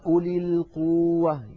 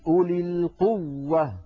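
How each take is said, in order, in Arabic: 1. يُمدّ صوت الواو كحرف مدّ طويل. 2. يُضعّف صوت الواو بوضوح مع الضغط.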